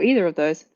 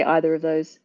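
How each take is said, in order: First: "either" with a long ee at the start; EE-ther pronunciation. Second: "either" with an opening eye sound; EYE-ther pronunciation. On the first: Showing she could say both, "either" said EE-ther. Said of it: "sometimes we'll say differently". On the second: Showing she could say both, "either" said EYE-ther. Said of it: "I could say either of those". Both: Shown as a demonstration.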